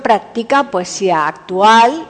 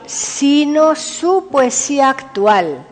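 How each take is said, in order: First: Said in the usual way. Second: "su" set apart, slower and higher; stress on SU. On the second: Real, not acted. Presenter sets the poet's own work apart, stress on "su". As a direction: lean slowly on "su", pitch lifted. Contrast: his own current poetry.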